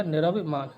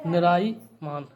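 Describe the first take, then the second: First: "निरभिमान" with short र and भि; correct form. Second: "निराईमान" slow, with long राई; wrong form. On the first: Teacher correcting students, clear bhi syllable. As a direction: sound the भि in "निरभिमान". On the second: Teacher reading the word to be corrected, slow vowels. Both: Shown as a demonstration. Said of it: "तो ये हो जाएगा".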